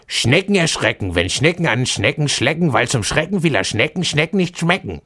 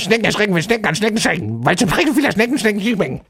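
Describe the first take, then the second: First: It is said fairly fast. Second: It is said very fast.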